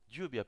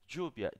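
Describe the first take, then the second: First: The ll is said softly, general Spanish style. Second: The ll is said strongly, far-south American style.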